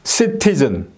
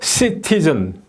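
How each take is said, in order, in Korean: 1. 강세는 두 번째 음절에 있어요. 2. 강세는 두 번째 음절에 있어요.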